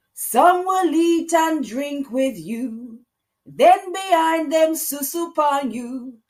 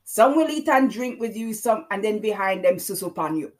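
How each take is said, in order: First: Put-on high, loud, slow Jamaican-accented lyric, half sung; Jamaican twang. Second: Put-on Jamaican-accented line, spoken rather than sung; Jamaican twang. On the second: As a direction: say the lyric again in a lighter Jamaican lilt. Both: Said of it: "That's my Jamaican, uh, twang there".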